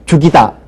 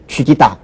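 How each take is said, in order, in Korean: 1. 첫 모음은 평범한 'u'예요. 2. 첫 모음이 앞으로 당겨져 'wi'가 돼요.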